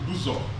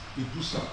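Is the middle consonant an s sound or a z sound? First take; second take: z sound; s sound. First: The middle consonant is a z sound. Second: The middle consonant is an s sound. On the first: This is the name the local people use. "Our people call our town Ibuzo with Z O" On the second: This is the official English form from colonial times. "became written and pronounced as Ibusa"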